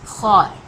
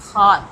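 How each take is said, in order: First: ख्वार with the kh-w glide, not खुआर; ख्वार said as one syllable; correct pronunciation. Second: ख्वार said as one syllable, not खुआर; louder ख्वार as one syllable; correct pronunciation repeated. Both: Shown as a demonstration. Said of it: "इसको खुआर नहीं पढ़ेंगे".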